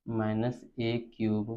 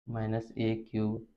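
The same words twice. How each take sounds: The two takes are said the same way.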